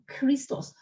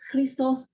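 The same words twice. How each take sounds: First: The first consonant is an aspirated voiceless stop. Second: The first consonant is not an aspirated stop. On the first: The speaker calls it right. "these stops are all voiceless. Voiceless aspirates" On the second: The speaker calls it wrong. "not Christos"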